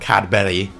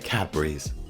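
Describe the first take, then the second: First: The name ends without an s sound. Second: The name ends with an s sound. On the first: The speaker calls it wrong. "not Cadbury" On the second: The speaker calls it right. "that is how you pronounce it"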